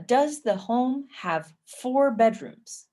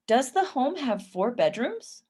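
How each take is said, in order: First: "four bedrooms" spoken slowly, falling at the end; slow careful reading. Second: "bedrooms" swept up at the end; rising question intonation. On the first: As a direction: spell out each word, settle down on "bedrooms". First reading before rising take. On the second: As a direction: ask it again with a lift on "bedrooms". Repeats as yes-no question, rising. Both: Shown as a demonstration.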